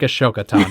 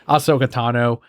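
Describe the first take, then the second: First: The name begins with the sounds 'Ash-o'. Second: The name begins with the sounds 'Ah-so'. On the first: The speaker calls it wrong. "But I like Ashoka Tano a lot more" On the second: The speaker calls it right. "It is Ahsoka Tano"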